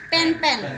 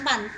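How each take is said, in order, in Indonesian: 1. Vokalnya berbunyi seperti e di pen. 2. Vokalnya berbunyi seperti a di pan. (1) "urgency berarti pen-pen" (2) "bukan pan"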